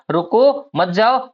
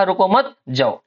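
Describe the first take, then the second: First: Slow rising रुको, pause, then मत जाओ together; comma after रुको. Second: रुको मत joined, pause, then falling जाओ; comma after मत. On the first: Teacher recaps first written version, pause after रुको. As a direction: break after रुको and keep मत जाओ joined. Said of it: "यहाँ पर क्या लिख दिया हमने?". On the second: Teacher recaps second written version, pause after मत. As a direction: run रुको into मत, break before जाओ. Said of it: "और एक जगह लिखा". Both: Shown as a demonstration.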